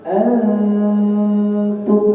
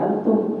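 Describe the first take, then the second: First: The n is held with a nasal hum. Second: The n is clipped with no nasal hum. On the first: The speaker calls it right. "Antum ada dengungnya" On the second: The speaker calls it wrong. "bukan antum ya"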